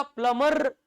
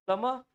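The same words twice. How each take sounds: First: "प्लम्बर" with an overdone final R; full R. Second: "प्लम्बर" with silent B and dropped final R; correct pronunciation. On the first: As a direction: say "प्लम्बर" as plum-urrr. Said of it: "आर को पूरा". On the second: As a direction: say "प्लम्बर" as plum-uh. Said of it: "आर का तो हम आधा ही उच्चारण". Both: Shown as a demonstration.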